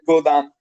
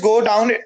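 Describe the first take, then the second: First: The second syllable sounds like 'dam'. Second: The second syllable rhymes with 'town'. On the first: This is how people now say it. "they change it in godam" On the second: This is the original form of the word. "it is go down"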